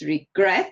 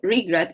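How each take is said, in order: First: The stress is on the second syllable. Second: The stress is on the first syllable. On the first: The speaker calls it right. "it's regret, it's on the second syllable" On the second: The speaker calls it wrong. "it's not regret"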